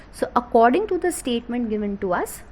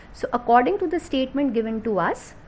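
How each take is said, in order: Both takes have the same delivery.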